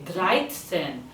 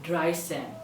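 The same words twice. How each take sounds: First: Dreizehn with a clear ts, "dry-tsen". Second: Dreizehn wrongly as "dry-sen", plain s; missing t sound. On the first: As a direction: sound a t before the s in dreizehn. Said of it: "set has a t sound". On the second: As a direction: drop the t so dreizehn has only an s. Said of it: "not dreizehn". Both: Shown as a demonstration.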